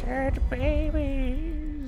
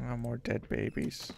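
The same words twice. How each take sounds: First: Creepy drawn-out. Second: Said in the usual way. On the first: Acted.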